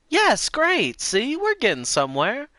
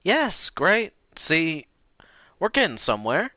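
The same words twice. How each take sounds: First: Squeaky high, louder granny; very high old lady voice. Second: Lightly raised granny voice; sweet old lady. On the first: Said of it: "repeated much higher". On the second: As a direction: say it kindly, a bit high. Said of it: "repeated higher". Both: Shown as a demonstration.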